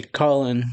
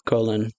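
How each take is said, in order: First: "Colin" said with an open vowel, COLL-in; first vowel of "Colin" as in doll; short-o pronunciation. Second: "Colin" said with a long o, COE-lin; first vowel of "Colin" as in coal; long-o pronunciation. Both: Shown as a demonstration. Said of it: "or Colin".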